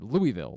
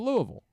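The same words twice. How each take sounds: First: It is pronounced the way outsiders say it. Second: It is pronounced the way locals say it. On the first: "It's all I've ever heard" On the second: "every human in the city said"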